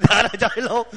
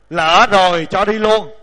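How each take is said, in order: First: Words breaking up in real chuckles; laughing. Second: Loud, slow, drawn-out punchline; mock-solemn verse ending. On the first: Real, not acted. Teacher amused by the joke ending to the verse, laughing as speaking. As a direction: repeat the punchline through laughter. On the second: Teacher capping a solemn verse with a joke, slow mock-solemn intoning. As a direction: deliver it in the same weighty recitation.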